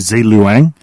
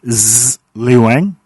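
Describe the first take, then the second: First: The Z sound at the start is short. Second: The Z sound at the start is long and buzzing. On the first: A human actor said it. "the human voice actor because they pronounce it as" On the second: A computer voice said it. "a long Z, like zzz, like builds it up like a mosquito"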